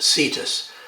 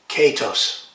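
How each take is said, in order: First: The word begins with a soft s sound. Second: The word begins with a hard k sound. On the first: This is the Latinized pronunciation. "The C being soft" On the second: This is the Greek pronunciation. "In Greek it would be pronounced"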